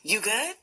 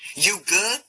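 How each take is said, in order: First: It sounds warm and concerned, like a friendly check-in. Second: It sounds challenging and confrontational, ready for trouble. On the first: Asking how the other person is doing. "How are you?" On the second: Asking whether the other person has a problem. "Is there a problem?"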